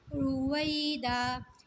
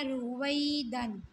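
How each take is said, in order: First: The word ends with a long a vowel. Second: The word ends with an n sound. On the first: The reader stops on the word. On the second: The word is read in continuous flow.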